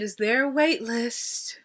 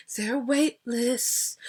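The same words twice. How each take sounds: First: Slow, sweetly dramatic ask; polite wait-list ask. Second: Polite wait-list ask. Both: Shown as a demonstration. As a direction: ask it with a little drama but nice. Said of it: "you gotta say it like that".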